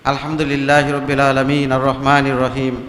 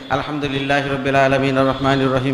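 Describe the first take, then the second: First: It is recited slowly and calmly. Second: It is recited quickly without pausing.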